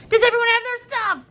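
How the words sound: It is said in an excited voice.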